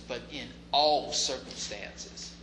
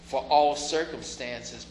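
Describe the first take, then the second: First: "in" and "all" stressed slowly, softer, as the right reading; slow, land on "in" in "in all circumstances"; contrast stress. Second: "for" leaned on slowly as the rejected word; slow, stress "for" in "for all circumstances"; contrast stress. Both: Shown as a demonstration. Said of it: "to give thanks not".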